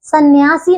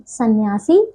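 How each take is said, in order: First: सन्यासी as the faulty form, set up for correction; mispronunciation. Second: सन्यासी low, as the correction; correct pronunciation. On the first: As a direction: say सन्यासी as the wrong take. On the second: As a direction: give सन्यासी lower as the right form. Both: Shown as a demonstration. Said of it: "सन्यासी नहीं".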